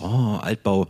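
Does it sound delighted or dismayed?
delighted. It sounds delighted and admiring.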